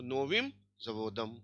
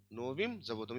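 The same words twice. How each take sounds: First: नोविम जवोदम said slowly, each syllable spelled out; drawn-out teacher demo of नोविम जवोदम; slow model reading. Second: Said in the usual way. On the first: Shown as a demonstration. Teacher models the Russian phrase for the class, slow and deliberate. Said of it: "नोविम जवोदम, slow model reading". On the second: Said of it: "repeated at normal pace".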